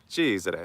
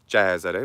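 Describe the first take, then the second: First: The first vowel is a closed e. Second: The first vowel is an open e. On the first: The speaker calls it right. "but it's closed" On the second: The speaker calls it wrong. "It's not"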